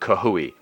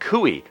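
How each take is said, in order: First: The name starts with an added 'ka-h' sound. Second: The name starts directly with a 'coo' sound. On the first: The speaker calls it wrong. "there's no A or H in Cooey, not Kahooey" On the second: The speaker calls it right. "I tried to make a conscious effort to pronounce it Cooey"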